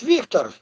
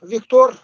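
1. Произносится по-русски. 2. Произносится по-французски. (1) "Вот у нас как говорят" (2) "А у французов Виктор"

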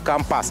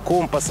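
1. Ударение на втором слоге. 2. Ударение на первом слоге. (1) "а компас" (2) "Мы говорим не компас"

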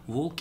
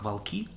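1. Ударение на первом слоге. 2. Ударение на последнем слоге. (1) "вместо «волки»" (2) "смещение ударения на окончании"

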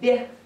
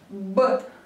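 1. Согласная мягкая, палатализована. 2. Согласная твёрдая, не палатализована.

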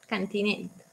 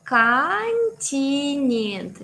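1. Los sonidos T y N suenan duros, como en español. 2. Los sonidos T y N suenan suaves, palatalizados. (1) "Esa es tu versión que ya se, se entiende" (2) "para hacerlo más ruso"

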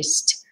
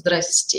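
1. Приветствие сведено к одному короткому слогу. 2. Средние звуки опущены, получается сокращённая форма. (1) "или" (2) "Не просто"

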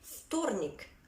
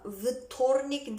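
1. İlk ses ötümsüz F'dir. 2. İlk ses ötümlü V'dir. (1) "hafif bir F gibi söylüyoruz" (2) "vtornik değil"

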